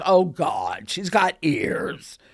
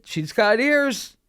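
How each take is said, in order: First: Put-on Mary realizing the girl has a gift, slowly; Mary's dawning realization. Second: Slow, higher knowing verdict; cousin's verdict. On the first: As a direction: draw it out slowly in dawning dismay. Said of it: "And Mary". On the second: Retold or imitated. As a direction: say it slowly as the final word. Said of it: "my second cousin said".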